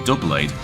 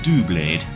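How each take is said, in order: First: The name sounds like English 'double blade'. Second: The name has a slight French pronunciation. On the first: "As in double blade" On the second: "going down a slight French pronunciation"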